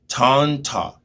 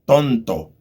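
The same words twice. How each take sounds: First: The t is said the English way. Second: The t is said the Spanish way. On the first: The speaker calls it wrong. "It's not like in English" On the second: The speaker calls it right. "it's ton, like more strong"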